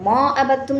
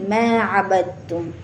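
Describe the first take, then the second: First: The vowel after m is an open 'aa'. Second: The vowel after m leans toward 'e'. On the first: The speaker calls it wrong. "नहीं" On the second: The speaker calls it right. "मीम जो है उसको पतला बना कर पढ़ा जाएगा"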